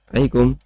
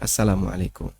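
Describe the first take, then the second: First: It is mumbled, with the first part swallowed. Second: It is said fully and clearly, every part heard. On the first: The greeting is said without real intent. The speaker calls it wrong. "assalamnya nggak kedengaran" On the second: The greeting is meant sincerely as a prayer. The speaker calls it right. "Ya yang serius ya"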